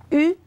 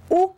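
First: U as a rounded front vowel, like French "u"; French-style u. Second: Ou as a rounded back vowel, like French "ou"; Spanish u as "ou". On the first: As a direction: say U with rounded lips, tongue forward. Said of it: "ça va passer, c'est correct". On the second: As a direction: model Ou with the tongue pulled back. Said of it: "mais si vous dites U". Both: Shown as a demonstration.

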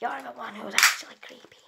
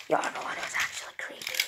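First: Said in the usual way. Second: Whispered robot voice. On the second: Acted. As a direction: whisper it back like a creepy robot.

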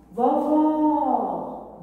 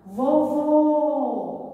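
First: VOVÓ called loud and high with a long open last vowel; stretched, stressed open Ó in "Vovó"; calling out, open Ó. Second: VOVÔ called loud and high with a long closed last vowel; stretched, stressed closed Ô in "Vovô"; calling out, closed Ô. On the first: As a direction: call "Vovó" to someone at a distance, opening the final Ó. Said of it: "Vejo que o som está aberto". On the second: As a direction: call "Vovô" to someone at a distance, rounding the final Ô. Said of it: "Vejo que o som é fechado". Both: Shown as a demonstration.

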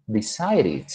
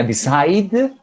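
First: "decide it" run together as "decided", soft "-id" ending; ED como ID. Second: Said in the usual way. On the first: Shown as a demonstration. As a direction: let "decide it" fall softly into a final "id". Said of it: "los hago sonar como si fuera una I D". ("decide it" como "decided", con "id" suave al final) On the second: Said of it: "en presente tenía decide".

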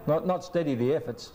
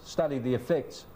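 First: "steady" and "efforts" as the mistaken words; higher-pitched mock of saying "efforts"; wrong-word demo. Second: "effects" stressed on the second syllable; right-word demo. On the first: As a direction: show the slip, "steady the efforts". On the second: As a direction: correct it firmly to "effects". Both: Shown as a demonstration. Contrasts wrong word with right.

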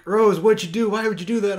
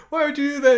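First: Higher and louder, mock distress; shrill mock "why would you do that"; mock-imitating a panicked Finn, higher and louder; quoting Finn. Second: Much higher and louder mock Finn; squeaky hammed-up disbelief; retelling Finn's bewildered question, high and loud; quoting Finn. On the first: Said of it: "he's like". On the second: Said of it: "he asks her, he's like".

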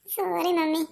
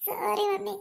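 First: Said in the usual way. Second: Put-on higher, softer tearful child's apology; teary little boy begging mom's pardon; crying sorry. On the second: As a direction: whimper it out like a crying kid. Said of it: "എൻ്റെ മോൻ ഇങ്ങനെ കിടന്ന് കരയല്ലേ?".

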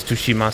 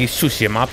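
First: Tsushima with a sounded T; Jin's pronunciation. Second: Tsushima with the T left silent; alternative pronunciation. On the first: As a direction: say Tsushima as "too-shima". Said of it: "but Jin says Tsushima". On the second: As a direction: say Tsushima as "soo-shima". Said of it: "It could be Tsushima". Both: Shown as a demonstration.

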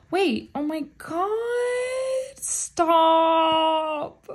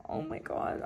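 First: A high, loud, near-tearful squeal; overwhelmed squeal. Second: Breathless whisper. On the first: Fan pulling a card she wanted, squealing near tears. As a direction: overcome with joy, nearly crying. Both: Real, not acted. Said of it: "I'm not crying".

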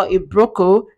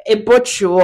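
First: "broco", brochure said with a hard k; "broco" for brochure, no sh sound; mispronounced brochure. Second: Self-corrected "brochure", softened in the middle; corrected pronunciation. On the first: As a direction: say "broco" with a k in the middle. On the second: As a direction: say "brochure" without the hard k. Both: Real, not acted. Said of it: "Is it broco or brochure?".

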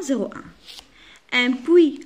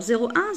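First: "zéro un" stretched out very slowly, syllable by syllable; slow dictation. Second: Said in the usual way. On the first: Shown as a demonstration. Teacher to pupils showing the strokes, very slow. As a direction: draw out "zéro un" as if tracing each stroke. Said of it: "Alors, zéro un".

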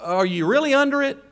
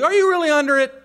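First: Said in the usual way. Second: "you" hit high and loud; stress on you. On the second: Shown as a demonstration. Preacher pressing each listener, stress on "you". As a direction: lean hard on "you".

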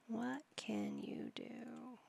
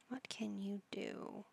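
First: Slow, unvoiced whisper. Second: Much softer, slow murmur. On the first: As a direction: breathe the question out as a slow whisper. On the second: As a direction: mutter the question under your breath, slowly. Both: Real, not acted. Repeated question to Sim.

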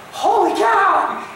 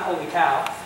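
First: High, loud, drawn-out yelp of shock; startled exclamation. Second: Said in the usual way. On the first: Acted. Preacher acting someone woken mid-storm, startled shout. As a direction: blurt it out, stretched and high.

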